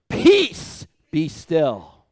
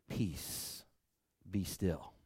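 First: Much higher, louder, forceful; commanding shout. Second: Much softer, near whisper; hushed command. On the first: Preacher showing how Jesus commanded the storm, shouting. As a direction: rebuke the storm at full force. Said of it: "Not peaceful now". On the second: Preacher repeating the storm rebuke softly, hushed. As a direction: breathe it out gently. Soft reprise after the shout. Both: Shown as a demonstration.

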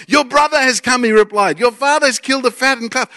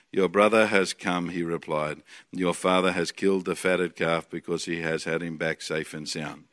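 First: Higher, louder, thrilled news; excited reading. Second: Much lower, softer, slow monotone; dull mock reading. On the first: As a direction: read it like wonderful news. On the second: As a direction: read it like it bores you to death. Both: Shown as a demonstration. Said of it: "read the Bible a bit like this".

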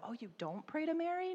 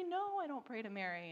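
First: High, surprised "Oh, you don't pray to Mary?"; surprised question. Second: Said in the usual way. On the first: Retold or imitated. Muslim mom asking the Christian about Mary, surprised. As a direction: ask it with amazement. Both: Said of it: "and so".

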